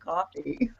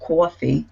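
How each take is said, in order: First: The word has a standard accent. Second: The word has a Brooklyn accent. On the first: The speaker calls it right. "instead of coffee" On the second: The speaker calls it wrong. "I just said coffee"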